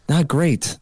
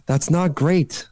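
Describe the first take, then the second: First: Said in the usual way. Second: That's not great drawn out slowly, weight on great; slow it right down and lean on great; slow, emphatic. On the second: Real, not acted.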